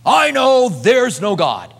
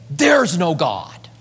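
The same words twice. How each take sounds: First: Slow, higher, louder "I know there's no God" with the "I" punched; emphatic claim. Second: Slow, even "There's no God"; flat assertion. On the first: Preacher mocking an atheist's certainty, emphatic. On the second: Preacher quoting an atheist, slow and plain. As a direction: state it plainly and slowly. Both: Retold or imitated.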